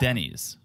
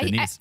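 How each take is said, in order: First: It sounds like the man's name Denny. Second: It sounds like the woman's name Denise. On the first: "It's a man's first name, Denny" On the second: "You're saying it like a woman's first name, Denise"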